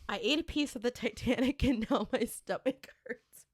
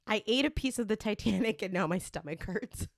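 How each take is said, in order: First: It is read slowly and deliberately. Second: It is read at a normal pace.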